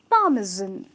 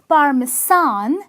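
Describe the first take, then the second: First: The middle consonant is a buzzing Z sound. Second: The middle consonant is a hissing S sound. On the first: The speaker calls it right. "with a Z in the pronunciation" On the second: The speaker calls it wrong. "It's not parmesan"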